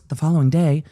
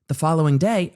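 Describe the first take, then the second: First: It is read in a put-on narrator voice. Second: It is read in the speaker's plain voice.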